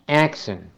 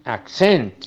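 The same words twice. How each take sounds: First: It is said with the noun pronunciation. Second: It is said with the verb pronunciation. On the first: It names a thing. "Como sustantivo se pronuncia accent" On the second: It names an action. "ya como verbo es accent"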